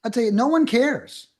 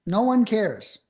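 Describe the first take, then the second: First: Emphatic. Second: Said in the usual way. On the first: Real, not acted. Emphatic point about wordy scripts.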